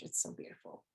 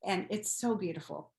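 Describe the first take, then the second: First: "it's so beautiful" breathed as a soft unvoiced whisper. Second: Said in the usual way. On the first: Real, not acted. Repeats the phrase as a whisper.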